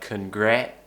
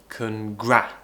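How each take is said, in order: First: The second vowel is a mid 'eh' sound. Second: The second vowel is an open front 'a'. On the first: The speaker calls it wrong. "Often it's pronounced as eh" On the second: The speaker calls it right. "but we want congra"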